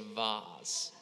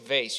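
First: The word is said in a posh, fancy way. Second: The word is said in a plain, ordinary way. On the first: It is a precious, costly object. The speaker calls it right. "you say vase" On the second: It is an ordinary, everyday object. The speaker calls it wrong. "you don't say vase"

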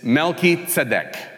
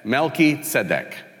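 No difference in how they are said.

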